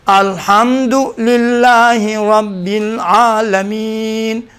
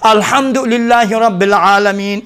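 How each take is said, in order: First: It is recited very slowly. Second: It is recited quickly.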